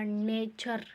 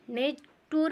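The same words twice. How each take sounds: First: "नेचर" said slowly with ch, nay-cher; slow, careful "नेचर" with a ch sound; correct pronunciation. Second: "नेटुर" with a hard t, like net-oor; wrong pronunciation. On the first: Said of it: "अब इसको बोलेंगे". ("नेचर" सही उच्चारण, धीरे, च की ध्वनि के साथ) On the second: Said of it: "नहीं बोलेंगे". ("नेटुर" गलत उच्चारण, ट की ध्वनि के साथ) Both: Shown as a demonstration.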